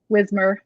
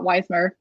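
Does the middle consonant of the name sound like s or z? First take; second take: z; s. First: The middle consonant sounds like a z. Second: The middle consonant sounds like an s. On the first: The speaker calls it right. "Pretend the S is a Z" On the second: The speaker calls it wrong. "not Weismer"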